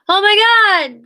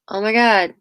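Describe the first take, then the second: First: It is said in an exaggerated, over-the-top way. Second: It is said in a steady, unchanging tone. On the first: "she doesn't go like" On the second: "she's just very her tone stays"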